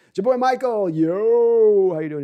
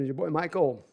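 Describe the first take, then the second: First: Hammed-up Godfather-style greeting, higher and louder; a loud mock mafia accent; mock mob accent, announced loudly. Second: Said in the usual way. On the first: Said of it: "Godfather ... as an accent".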